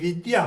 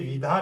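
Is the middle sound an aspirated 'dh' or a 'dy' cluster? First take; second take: dy cluster; aspirated dh. First: The middle sound is a 'dy' cluster. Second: The middle sound is an aspirated 'dh'. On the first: The speaker calls it right. "ये विद्या है" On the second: The speaker calls it wrong. "बहुत लोग पढ़ते हैं विधा ... ये विधा नहीं है"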